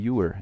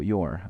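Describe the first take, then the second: First: The 'you' vowel is fully pronounced. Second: The 'you' vowel is cut short. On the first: The speaker calls it wrong. "No digo your" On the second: The speaker calls it right. "Acá no se pronuncia la U"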